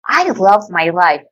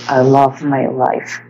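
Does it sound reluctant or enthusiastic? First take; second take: enthusiastic; reluctant. First: It sounds enthusiastic and sincere. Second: It sounds reluctant and unconvinced.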